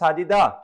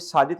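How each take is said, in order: First: The name ends with an added vowel sound. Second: The name ends on a plain consonant.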